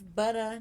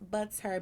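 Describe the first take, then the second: First: The name ends in a plain vowel without r. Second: The name ends in an r-coloured er sound. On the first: The speaker calls it right. "my name is Butter, ... B U T T A" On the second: The speaker calls it wrong. "not Butter, ... not B U T T E R"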